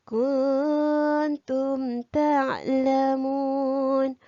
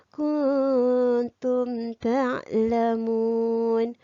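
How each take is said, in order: Both takes have the same delivery.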